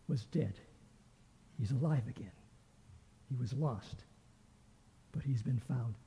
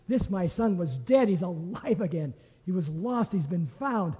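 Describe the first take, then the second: First: Tender, hushed. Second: Joyful proclamation. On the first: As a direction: let it fall quietly, full of love. Father gently answers elder son. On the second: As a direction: proclaim it like a father bursting with joy. Father rejoices to the servants. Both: Acted.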